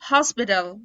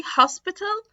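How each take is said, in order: First: Louder "hospital" as "hospidal"; American flapped T. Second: Higher, slow British "hospital" with real T; British clear T. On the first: Teacher drilling T plus L examples, flapped T. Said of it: "هيتنطق D". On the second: Teacher contrasting with American D, British clear T. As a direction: say hospital as "hos-pi-tal". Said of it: "في ال British accent". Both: Shown as a demonstration.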